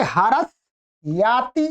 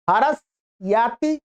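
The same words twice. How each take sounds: First: Said in the usual way. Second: Slow demonstration. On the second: Shown as a demonstration.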